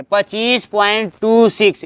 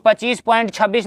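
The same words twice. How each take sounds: First: "टू six" read slowly as two separate digits; slow, separated digits on "टू six". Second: Said in the usual way. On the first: Shown as a demonstration. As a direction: space out "टू", then "six", teacher demonstrating. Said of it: "एक एक digit पढ़ते हैं". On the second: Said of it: "नहीं पढ़ेंगे".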